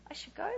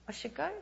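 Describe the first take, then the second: First: Quiet, higher, disbelieving rise on go; incredulous question. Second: Quiet, puzzled echo of the command; doubtful question. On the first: Preacher doubting the call to Nigeria, quiet disbelief. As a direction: repeat it as if you can't believe it. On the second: Preacher echoing the Spirit's word, puzzled and quiet. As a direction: ask it back under your breath, unsure. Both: Retold or imitated. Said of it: "You should go".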